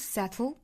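The t is fully released before the l. "英式发法，这个舌边爆破音是要爆破出来的"

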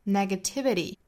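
The final t is a quick flap. "美音像最后一个这个 T 会发成 flap T"

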